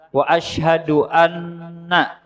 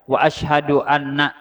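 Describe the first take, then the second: First: The double n is held nasally for longer. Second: The double n is cut short without holding. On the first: The speaker calls it right. "itu ditahan sedikit lah" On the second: The speaker calls it wrong. "Jangan dibaca ... Salah"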